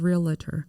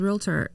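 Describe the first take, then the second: First: An extra vowel is heard before the final syllable. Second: No extra vowel is heard before the final syllable. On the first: The speaker calls it wrong. "of realtor" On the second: The speaker calls it right. "says realtor instead"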